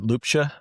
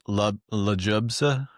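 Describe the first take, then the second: First: The name is said without a J sound. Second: The name is said with a J sound. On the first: The speaker calls it right. "There you go. That was perfect" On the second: The speaker calls it wrong. "it gets butchered"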